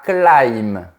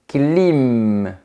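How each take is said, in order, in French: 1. La voyelle se prononce comme le 'eye' anglais. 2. La voyelle est un simple son 'ee'. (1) "pas climb" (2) "se prononce comme un I normal"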